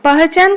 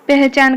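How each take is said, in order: First: पहचान with an open a before h; पहचान said letter by letter, vowel unchanged; as spelt. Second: पहचान said peh-chan; पहचान as spoken Hindi pehchan; a becomes e. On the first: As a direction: read पहचान as pa-ha-chan. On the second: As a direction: give पहचान an e vowel before h. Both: Shown as a demonstration. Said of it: "पहचान कौन हब".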